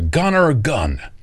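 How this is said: The name is said with an American pronunciation.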